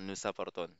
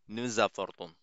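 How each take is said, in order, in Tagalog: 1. Ang dalawang salita ay binibigkas nang walang z na link. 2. Ang huling s ay nagli-link bilang tunog na z. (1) "Hindi siya nous apportons" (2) "Ang basa dito ay nous apportons"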